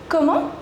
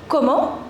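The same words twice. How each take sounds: The two takes are said the same way.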